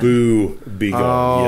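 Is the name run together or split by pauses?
split. The words are split apart by a pause. It is a ghost-scaring phrase.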